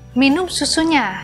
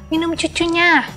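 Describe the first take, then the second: First: The word is pronounced fully with clear s sounds. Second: The word is pronounced with childish baby-talk sounds. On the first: The speaker calls it right. "maka bilang" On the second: The speaker calls it wrong. "jangan bilang"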